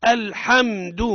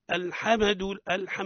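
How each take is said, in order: First: الحمد loud, m closed and held without a bounce; still held meem. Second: الحمد with an extra vowel after m, "alhamadu"; bouncing the meem. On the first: Teacher correcting the bounced meem, firm held m. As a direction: raise the voice and hold the m in الحمد. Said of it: "لها ضوابط". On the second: Teacher mimicking a common mistake, bounced meem. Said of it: "الخطأ في الميم من أوجه قلقلتها". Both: Shown as a demonstration.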